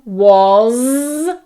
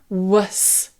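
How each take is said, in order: First: It ends in a voiced buzzing z sound. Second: It ends in a voiceless hissing s sound. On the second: "So this becomes a s"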